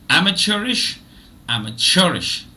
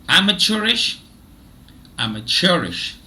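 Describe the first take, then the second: Both takes have the same delivery.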